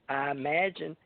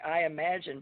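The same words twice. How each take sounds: First: It is said in a rural Kentucky accent. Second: It is said in a plain standard accent. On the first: "but they say" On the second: "they don't say I imagine"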